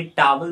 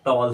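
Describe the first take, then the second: First: "टॉवल" in two syllables with a W; common mispronunciation. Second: "टॉल" shortened to one syllable; correct pronunciation. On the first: Retold or imitated. Teacher showing another common mistake, "टॉवल" pronounced with a middle W. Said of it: "ऐसे ही टॉवल बोलते हैं". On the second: Shown as a demonstration. Teacher correcting learners, "टॉल" pronounced as a single syllable. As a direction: say "टॉल" without the middle W. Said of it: "वो टॉल होता है".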